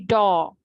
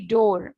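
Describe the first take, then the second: First: The vowel sounds like an open 'aw'. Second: The vowel sounds like a pure 'oh'. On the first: This is the original way of saying it. The speaker calls it right. "it's supposed to be door. That's the original pronunciation" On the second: This is the Indian way of saying it. The speaker calls it wrong. "It's not supposed to be door"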